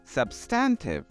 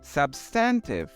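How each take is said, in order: First: It is said in a British accent. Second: It is said in a British accent.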